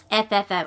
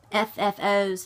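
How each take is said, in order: First: A weak attempt at an Australian accent; failed Australian accent. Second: Said in the usual way. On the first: Shown as a demonstration. Stitcher imitating Carolyn, a faint Australian accent. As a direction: try to say it the Australian way and barely get there. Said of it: "I can't do it". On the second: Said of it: "That was not me attempting to be Carolyn".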